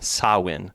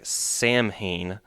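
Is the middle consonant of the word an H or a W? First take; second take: W; H. First: It is said like sah-win, with a W. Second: It is read as spelled, with an H. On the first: The speaker calls it right. "but in the pronunciation it's S A H W I N" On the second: The speaker calls it wrong. "if you look at it in like American English, it looks like Samhain"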